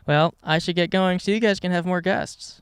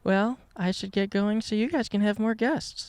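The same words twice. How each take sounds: First: It is said in a plain, ordinary voice. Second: It is said in a sultry, sexy voice.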